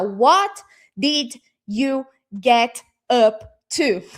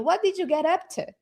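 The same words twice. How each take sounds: First: Each word is said separately and slowly. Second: The words are linked with reduced endings. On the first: The speaker calls it wrong. "Vocês não vão falar assim pausadamente" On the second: The speaker calls it right. "já contrai aquele finalzinho ali"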